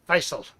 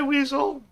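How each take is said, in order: First: It is said unlike the English word weasel. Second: It is said like the English word weasel. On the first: The speaker calls it right. "I believe is the correct pronunciation" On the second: The speaker calls it wrong. "that thing looks like Weasel to me"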